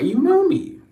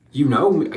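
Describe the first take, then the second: First: Squeaky high. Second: Said in the usual way. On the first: Shown as a demonstration. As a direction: jump way up in pitch.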